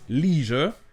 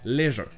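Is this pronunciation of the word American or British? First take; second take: American; British. First: The word is said with an American pronunciation. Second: The word is said with a British pronunciation. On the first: "En anglais américain, ça se prononce leisure avec E I" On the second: "en anglais britannique, ça se prononce leisure"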